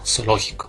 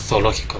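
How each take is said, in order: First: The z is said like an s. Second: The z is said as in Spain. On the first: "Aquí en Ecuador, pues, si nosotros pronunciamos pues zoológico, pues la Z suena como S" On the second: "si vamos pues a España, allá pues la Z suena en ocasiones como sería zoológico"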